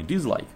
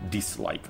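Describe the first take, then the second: First: The consonant after 'di' turns into z. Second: The consonant after 'di' stays a clear s. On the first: The speaker calls it wrong. "а не dislike" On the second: The speaker calls it right. "согласные не меняются"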